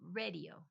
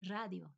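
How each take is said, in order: First: Radio as RAY-dee-oh; English radio. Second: Radio quickly, rolled R and open A; Spanish radio. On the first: Contrasting it with Spanish, radio as RAY-dee-oh. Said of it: "Instead of". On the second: Putting it back together, radio as Spanish RRAH-dyo. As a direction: say radio as 'RRAH-dyo'. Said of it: "same exact word in Spanish". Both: Shown as a demonstration.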